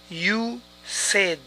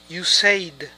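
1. La palabra said tiene una vocal distinta a say. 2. La palabra said mantiene la vocal de say. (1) "Es you said" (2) "Y esto también es incorrecto"

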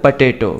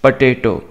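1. पहले अक्षर में घटा हुआ 'puh' स्वर है। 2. पहले अक्षर में घटा हुआ 'puh' स्वर है।

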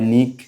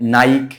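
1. এক সিলেবল, ছোট 'i' স্বরধ্বনি। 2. এক সিলেবল, 'eye' স্বরধ্বনি, k দিয়ে শেষ। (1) "অনেকে উচ্চারণ করে নিক" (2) "অনেকে উচ্চারণ করে নাইক"

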